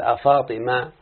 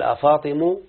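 First: أفاطمة with the final ta sounded, afatima; the complete form أفاطمة; full name with ta. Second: أفاطم cut after the m, ending on a u sound, afatemu; truncated vocative أفاطم; shortened name. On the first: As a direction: say أفاطمة keeping the closing a of the ta. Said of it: "يبقى ينتظر التاء يعني". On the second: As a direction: drop the ta and end أفاطم on u. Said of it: "على لغة من لا ينتظر". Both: Shown as a demonstration.

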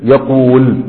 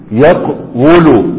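First: يقول said smoothly as yaqūl, a long ū with no separate waw vowel; easy final form. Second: يقول drawn out very slowly as yaqwulu, the waw carrying its own damma; original heavy form. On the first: Teacher showing students how easy the final يقول sounds, said smoothly. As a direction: let يقول flow as yaqūl, light and easy. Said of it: "شوف يقول سهلة إزاي؟". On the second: Teacher showing students the heavy original form of يقول, yaqwulu drawn out slowly. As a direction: stretch يقول syllable by syllable, sounding the heavy yaqwulu. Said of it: "أصل يقول إيه؟".

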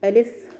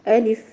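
First: ألف with the vowel stretched too long; ألف said wrongly with the kasra stretched; wrong alif. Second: ألف short and crisp, a slight push on the hamza; ألف said correctly with a little pressure on the hamza; correct alif. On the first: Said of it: "لا نقول ألف". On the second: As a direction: give ألف a firm hamza with no stretching. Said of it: "نعمل ضغطة شوية على الهمزة". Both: Shown as a demonstration.

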